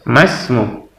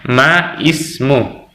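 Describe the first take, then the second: First: The 'i' is dropped, linking straight into 'smu'. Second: The 'i' of ismu is pronounced separately. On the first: The speaker calls it right. "ya ini juga masmu" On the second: The speaker calls it wrong. "bukan lagi dibaca ma ismu"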